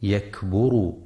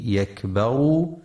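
First: يكبروا with ba rounded, yakburu; wrong pronunciation. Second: يكبروا with ba open, yakbaru; correct pronunciation. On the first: Teacher warns listeners against damma on the ba. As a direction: say يكبروا with damma on the ba to show the error. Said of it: "فلا يقرأ". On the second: Teacher shows listeners the fatha on the ba. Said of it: "لفتح الباء وعدم ضمها". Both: Shown as a demonstration.

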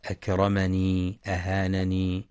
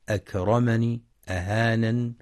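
First: أكرمني أهانني both ending in long i; wrong added ya. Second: أكرمني with the final ya sounded; wrong added ya. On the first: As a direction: sound the ya at the end of أهانني. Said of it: "بإثبات الياء". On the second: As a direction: end أكرمني on a long i. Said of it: "يخطئ من يقرأ". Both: Shown as a demonstration.

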